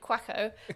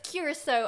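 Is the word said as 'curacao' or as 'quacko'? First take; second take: quacko; curacao. First: The word is squeezed into two syllables, 'quacko'. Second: The word is said in full, 'curacao'. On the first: The speaker calls it wrong. "as normally I pronounce it" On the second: The speaker calls it right. "How you're meant to pronounce it"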